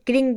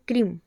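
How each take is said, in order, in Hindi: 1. यह kr से शुरू होता है और ng पर खत्म होता है। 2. यह kr से शुरू होता है और m पर खत्म होता है। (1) "कोई इसे क्रिंग बोलता है" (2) "इसका जो सही उच्चारण है वो है क्रीम"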